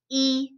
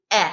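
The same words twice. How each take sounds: First: E as a long "ee" vowel. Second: E as short "eh", as in set. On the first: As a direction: say E drawn out as "ee". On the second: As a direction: say E as a brief "eh" sound. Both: Shown as a demonstration. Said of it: "a long sound to a short sound".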